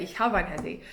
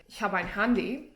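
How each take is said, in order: First: "Ich habe ein Handy" with "habe" said short, like "hab"; casual German with the verb shortened; dropped final E. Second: Said in the usual way. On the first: Shown as a demonstration. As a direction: clip the E off "habe". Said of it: "you would say". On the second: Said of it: "if you wanted to say".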